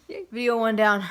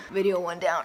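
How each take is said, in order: First: Loud happy announcement; excited cheer. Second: Whispered repeat; whispering. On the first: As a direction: celebrate finishing the first video. Cheering after finishing first video. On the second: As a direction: say it again in a whisper. Repeats the same words whispered. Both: Real, not acted.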